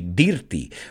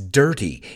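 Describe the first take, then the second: First: The first vowel sounds like a plain i. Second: The first vowel sounds like an e. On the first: The speaker calls it wrong. "A lot of my students say dirty" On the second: The speaker calls it right. "It's like, as if that I were an E"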